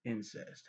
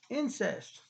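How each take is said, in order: First: Flat deadpan. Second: Incest. thrown up high in sarcastic horror; mock-shocked exclaim. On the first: Pretend. After the outburst, deadpan quiet Incest. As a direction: drop Incest. flatly, unimpressed. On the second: Reacting to the twins, sarcastic high Incest. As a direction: gasp out Incest. like a scandalized gossip. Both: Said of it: "being sarcastic".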